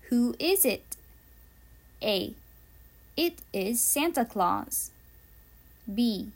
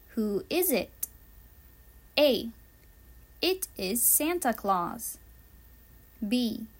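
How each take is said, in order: Both takes have the same delivery.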